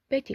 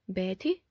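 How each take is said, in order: First: The voice falls and stays low. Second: The voice falls and then rises. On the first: "In official speech, it takes a falling tone" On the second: "usually takes a falling rising tone"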